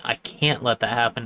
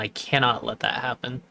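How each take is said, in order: First: The negative is said as the short contraction. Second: The negative is said as the full two-syllable form.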